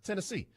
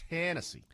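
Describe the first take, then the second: First: Tennessee with TEN left light, weight on SEE; unaccented first syllable. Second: TEN in Tennessee hit high, then falling; first-syllable stress. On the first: Host arguing how it should be said, no accent on TEN in Tennessee. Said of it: "there's no accent there". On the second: Host showing the wrong way, first-syllable stress on Tennessee. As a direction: punch the front of "Tennessee". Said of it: "not Tennessee". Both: Shown as a demonstration.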